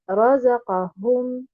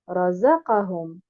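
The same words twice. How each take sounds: First: The stress falls on the ra and hum syllables. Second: The stress falls on the za syllable only. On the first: "en plaçant un nabr sur harakat al-ra et harakat al-ha" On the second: "en plaçant uniquement un nabr sur harakat al-zay"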